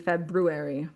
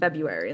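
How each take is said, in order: First: The first R sound is clearly pronounced. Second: The first R sound is left out. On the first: The speaker calls it right. "It's supposed to be February" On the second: The speaker calls it wrong. "like it's the R's not there"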